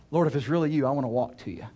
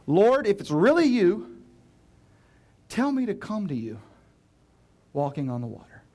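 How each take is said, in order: First: Said in the usual way. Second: Calling out. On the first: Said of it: "reread as Peter". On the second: Acted. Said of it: "Peter called to him".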